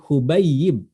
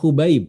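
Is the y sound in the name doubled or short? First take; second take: doubled; short. First: The y sound in the middle is doubled. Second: The y sound in the middle is short. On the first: The speaker calls it right. "ya-nya ditasydid" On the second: The speaker calls it wrong. "Bukan Hubaib"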